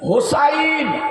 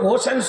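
First: The name ends with a 'sain' sound. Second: The name ends with a 'sen' sound. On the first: The speaker calls it right. "আসল নামটা হলো হুসাইন" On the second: The speaker calls it wrong. "কিন্তু হোসেন শব্দ নয়"

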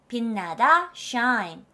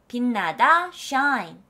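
Both takes have the same delivery.

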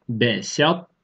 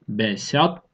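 No difference in how they are said.

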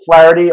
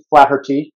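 First: The name is said in a non-Irish pronunciation. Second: The name is said in the Irish pronunciation.

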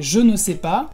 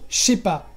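First: Every syllable is said in full, including ne. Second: It is said quickly, with ne dropped. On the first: "en lugar de je ne sais pas" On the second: "decimos rápido je sais pas"

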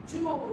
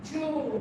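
No difference in how they are said.

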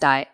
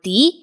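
First: It is pronounced like the English word die. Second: It is pronounced as the German word die. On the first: The speaker calls it wrong. "Please don't pronounce this word, which looks like the English word die, as die" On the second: The speaker calls it right. "This is the German word die"

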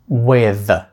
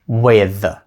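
Both takes have the same delivery.

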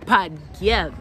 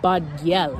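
First: It is said with strong, forceful emphasis. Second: It is said plainly, without extra emphasis.

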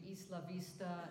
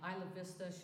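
First: The name is pronounced the original way. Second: The name is pronounced the altered local way. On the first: The speaker calls it right. "should be" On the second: The speaker calls it wrong. "messes up the pronunciation of like"

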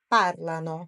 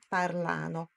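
First: The stress is on the first syllable. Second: The stress is on the second syllable. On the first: The speaker calls it right. "Aqui é no par" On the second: The speaker calls it wrong. "não parlano"

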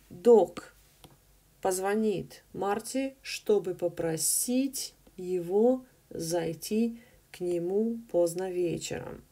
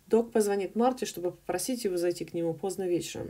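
First: The sentence is read slowly and carefully. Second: The sentence is read very fast and jumbled.

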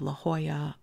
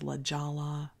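First: The name is pronounced the Spanish way. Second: The name is pronounced the English way. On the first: The speaker calls it right. "pronounced in Spanish" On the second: The speaker calls it wrong. "I crucified these names"

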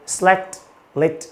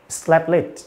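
First: The t at the first word's end is clearly heard. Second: The t at the first word's end is dropped. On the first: "Đọc rõ âm tờ" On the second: "khi đọc nhanh vào này, chúng ta sẽ đọc là"

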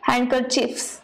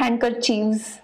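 First: The consonant before the ending is an F sound. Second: The consonant before the ending is a V sound. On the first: The speaker calls it right. "ये F ही रहता है" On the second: The speaker calls it wrong. "not handkerchiefs"

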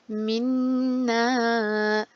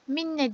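First: The final vowel is lengthened before stopping. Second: The final vowel is short before stopping. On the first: The speaker calls it right. "Bir elif miktarı uzattım ve durdum" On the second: The speaker calls it wrong. "Minne diye geçmiyorum"

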